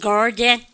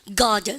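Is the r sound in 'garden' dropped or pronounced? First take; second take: pronounced; dropped. First: The r sound in the middle is pronounced. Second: The r sound in the middle is dropped. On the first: "미국 애들은 garden 중간에 R 발음 다 해준다" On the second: "영국 애들은요... 중간에 R 발음은 잘 안 하거든"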